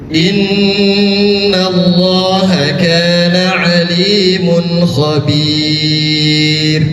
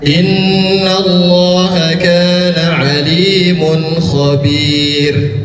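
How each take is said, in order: First: The final long vowel is held for four beats. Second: The final long vowel is held for two beats. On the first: "Empat harkat" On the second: "Dua harkat, boleh"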